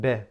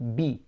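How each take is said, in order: First: The vowel after b is lax and incomplete. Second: The vowel after b is a clear ee. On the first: The speaker calls it wrong. "I'm not pronouncing the kasrah as it should be" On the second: The speaker calls it right. "It should be b"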